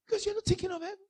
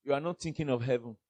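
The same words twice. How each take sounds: First: Tiny, very high, soft voice; high mimicking voice. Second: Said in the usual way. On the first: Preacher mimics those not thinking of heaven, high soft voice. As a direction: squeak it out softly in mimicry.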